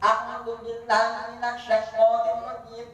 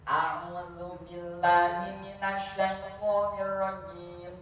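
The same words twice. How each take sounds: First: It is recited at a faster pace. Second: It is recited at a moderate, smooth pace.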